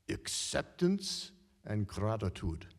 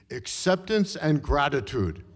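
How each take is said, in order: First: Put-on slow Hungarian accent, "acceptance" leaned on. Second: Put-on louder, "acceptance" hammered in a Hungarian accent; emphatic repeat. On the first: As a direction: calmly lay down "acceptance and gratitude" in a Hungarian accent. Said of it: "in her Hungarian accent". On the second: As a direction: drive "acceptance and gratitude" home, Hungarian accent. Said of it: "I repeat".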